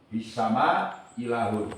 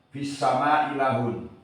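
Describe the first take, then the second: First: The first glottal stop is dropped entirely. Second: The first glottal stop is dropped entirely.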